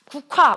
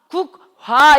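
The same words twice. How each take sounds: First: The k and h merge into one aspirated k. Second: The k and h are pronounced as separate sounds. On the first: The speaker calls it right. "기억이랑 히읗이 합쳐져서 뭐야? 하나 됐잖아" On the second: The speaker calls it wrong. "이렇게 발음해? 아니야, 우리 이렇게 발음하지 않아"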